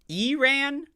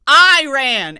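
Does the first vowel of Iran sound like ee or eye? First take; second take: ee; eye. First: The first vowel sounds like ee. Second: The first vowel sounds like eye. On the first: The speaker calls it wrong. "You ever hear people call, pronounce it Iran?" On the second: The speaker calls it right. "That shit says I"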